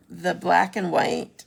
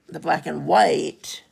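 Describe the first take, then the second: First: "black" stressed, slow phrase. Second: "white" stressed, loud and drawn out. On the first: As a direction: lean on "black" in a drawn-out phrase. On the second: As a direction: land hard on "white", slowly. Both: Real, not acted. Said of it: "I should put my emphasis".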